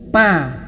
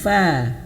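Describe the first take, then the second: First: Both lips close together for the first sound. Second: Lower lip touches upper teeth for the first sound. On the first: The speaker calls it wrong. "bukan bibir bawah dan atas yang menyentuh. Pa, pa bukan pa ya" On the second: The speaker calls it right. "tapi fa"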